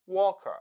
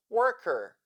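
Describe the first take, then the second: First: British-style 'walker' for worker, no R, schwa ending; British/Australian accent. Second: Demonstrated American 'worker' with R sounded; American accent. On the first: Teacher repeating the dialect demo, British or Australian accent. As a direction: drop the R's, British or Australian. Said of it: "British and Australian accents". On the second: Teacher repeating the dialect demo, American accent. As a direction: give 'worker' its American r-coloured ending. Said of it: "in the American accent". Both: Shown as a demonstration.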